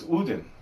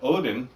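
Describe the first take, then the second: First: The name begins with an 'oo' vowel. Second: The name begins with an 'oh' vowel. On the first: "is Udin" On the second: "the way that we do it because we're country"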